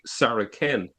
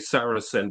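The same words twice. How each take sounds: First: The c is said as a k sound. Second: The c is said as an s sound. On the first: This is the way it was originally said. "the letter C, was originally pronounced with a K" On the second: This is the later way of saying it. "you wouldn't say Saracen"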